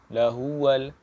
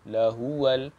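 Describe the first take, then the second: The two takes are said the same way.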